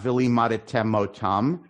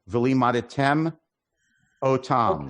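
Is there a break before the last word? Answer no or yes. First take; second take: no; yes. First: The last two words run together without a break. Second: There is a slight break before the last word. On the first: The speaker calls it wrong. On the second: The speaker calls it right. "you got to pause so you hear that aleph"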